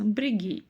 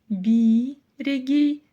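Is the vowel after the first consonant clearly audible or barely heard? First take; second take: barely heard; clearly audible. First: Said at natural speed, first vowel nearly dropped. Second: Said slowly, with the first vowel clearly sounded. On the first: "в этом естественном темпе палочки с точкой в данном случае практически не слышится" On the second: "Но это если медленно произносить"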